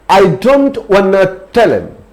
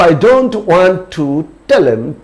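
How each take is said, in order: First: "Want to" is blended into "wanna". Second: "Want to" is said as two full words. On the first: "wanna means want to" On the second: "I don't want to"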